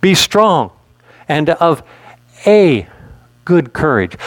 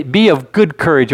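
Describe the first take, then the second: First: "a" said as a long "ay", set apart by pauses; stress on A. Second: Said in the usual way. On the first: Shown as a demonstration. Preacher stressing a word of scripture for the church, emphatic "a". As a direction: lean on the word "a", pausing before and after it. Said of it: "Why do I emphasize that word "a". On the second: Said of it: "'Cause sometimes we say".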